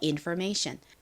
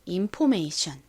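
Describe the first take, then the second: First: The second syllable has an r-colored er vowel. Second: The second syllable is a plain 'po' without r. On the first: "or은 er 소리가 나서" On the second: "O의 O 소리를 넣어서 information 이렇게 주로 표기하고 읽습니다"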